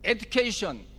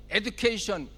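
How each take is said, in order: Both takes have the same delivery.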